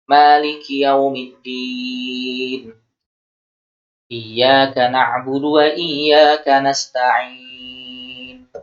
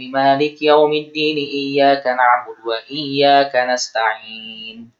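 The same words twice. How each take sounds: First: It is recited slowly, with pauses between verses. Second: It is recited quickly, running verses together. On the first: "beliau membacanya terpotong-potong, tenang, tartil" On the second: "maunya cepat-cepat"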